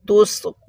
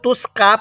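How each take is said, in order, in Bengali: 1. শেষ অক্ষরটি গোলাকার 'o' স্বরে শেষ হয়। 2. শেষ অক্ষরটি স্পষ্ট 'a' স্বরে শেষ হয়। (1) "এরকম ভাবে পড়ব" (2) "কেউ তুস কা পড়বেন না"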